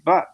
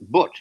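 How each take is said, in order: First: The word has a southern English vowel. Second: The word has a northern Yorkshire vowel. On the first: "the South they say" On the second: "Yorkshire, they tend to with the U they say"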